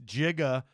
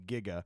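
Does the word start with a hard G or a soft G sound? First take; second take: soft G; hard G. First: It begins with a soft J-like sound. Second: It begins with a hard G sound. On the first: This is the older way of saying it. "with a soft G. Like that is t- giga is technically how they used to say it" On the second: This is the modern way of saying it. "it became giga"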